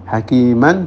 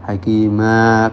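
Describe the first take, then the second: First: The word ends with an n sound. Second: The word ends with a long vowel. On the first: The reading continues into the next word. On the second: The reading stops on this word.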